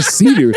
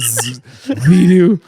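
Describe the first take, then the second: First: The name starts with a clear S sound. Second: The name starts with a lisped TH sound. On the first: "He can't say Sidu" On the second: "It's Lord Thidu"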